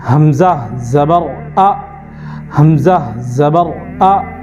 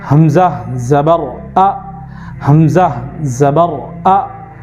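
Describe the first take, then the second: The two takes are said the same way.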